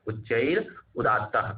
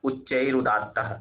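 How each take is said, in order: First: उच्चैरुदात्तः drawn out slowly, syllable by syllable, falling at the end; slow sutra recitation. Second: Said in the usual way. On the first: Shown as a demonstration. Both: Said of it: "यहाँ से प्रश्न पूछा जाएगा कि".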